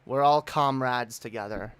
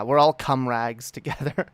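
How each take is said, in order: First: Said in the usual way. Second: "comrags" said as cum-rags; punning mispronunciation. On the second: Pretend. Streamer puns on comrades, saying "comrags" as cum-rags. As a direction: twist comrades into "comrags", short u and hard g.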